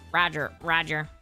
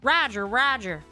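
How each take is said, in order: First: It is said in a robotic droid voice. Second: It is said in a southern drawl. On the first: "I hear it in the, the droid voice" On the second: "gotta get my southern voice going"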